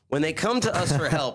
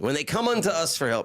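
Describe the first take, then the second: First: It is read in a plain, ordinary style. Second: It is read in a solemn, biblical style.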